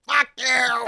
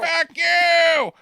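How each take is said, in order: First: Higher, playful jab; mock defiance. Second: Much higher, louder shouted jab; mock shout. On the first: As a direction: toss it off lightly, teasing. Echoing the defiant line. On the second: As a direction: yell it to top the last one. Topping the echo with a shout.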